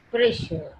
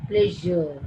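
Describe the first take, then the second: First: "pressure" with a voiceless sh in the middle; unvoiced SH. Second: "Pleasure" with a buzzing zh in the middle; voiced ZH. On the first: Teacher contrasting voiced and unvoiced, unvoiced SH. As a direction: keep the middle of "pressure" a hushed sh. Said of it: "It is unvoiced". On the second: Teacher contrasting voiced and unvoiced, voiced ZH. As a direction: make the middle of "Pleasure" vibrate as zh. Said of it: "but in this voice". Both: Shown as a demonstration.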